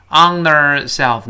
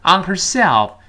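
First: "on herself" with the H dropped, run into "on"; H弱读脱落示范. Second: "On herself" with the H sounded and SELF stressed high; 重读herself. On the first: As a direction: link "on herself" smoothly without the H. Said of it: "没有击穿清辅音H". (省掉H音，连读"on herself") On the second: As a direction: keep the H, punch "herself". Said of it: "这个herself这个单词是重读的". (重读"herself"，H音读清楚) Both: Shown as a demonstration.

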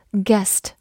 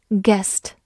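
The two takes are said the same way.

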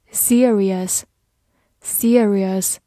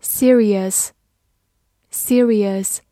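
First: "serious" clipped to two syllables, like "siris"; alternative pronunciation. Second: Said in the usual way. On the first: Shown as a demonstration. Vocabulary teacher gives the alternative reading of "serious", clipped to "siris". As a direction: say "serious" as "SEER-iss", dropping the middle vowel. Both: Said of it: "或者读作".

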